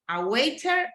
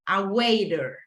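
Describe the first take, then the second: First: The t in the middle is crisp and strong. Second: The t in the middle is a soft flap. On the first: "people from U K, they pronounce in a really strong way the letter T" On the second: "in English from North America"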